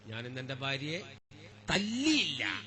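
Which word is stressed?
തല്ലിയില്ല. The stress is on തല്ലിയില്ല.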